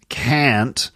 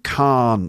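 First: It is said in an American accent. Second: It is said in a British accent.

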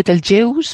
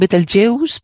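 First: It is pronounced the English way. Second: It is pronounced the English way.

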